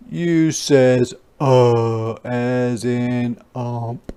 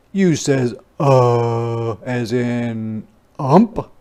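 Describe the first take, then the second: No difference in how they are said.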